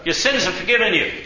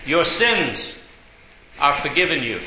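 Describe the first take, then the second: First: Said in the usual way. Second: Broken in two by a long pause after "sins". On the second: Retold or imitated. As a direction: spell it out for someone not getting it. Repeats slowly for puzzled driver.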